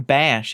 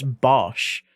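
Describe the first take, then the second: First: "Bash" with the A of cat; slow "Bash", vowel as in cat; short A vowel. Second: "Bosch" with the O of pot; slow "Bosch", rounded vowel as in pot. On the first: Streamer correcting people on a name, short A vowel. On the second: Streamer correcting people on a name, rounded O vowel. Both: Retold or imitated. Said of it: "it's not, it's Bosch".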